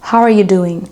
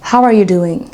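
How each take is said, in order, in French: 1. Les mots s'enchaînent en une seule phrase liée. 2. Les mots s'enchaînent en une seule phrase liée.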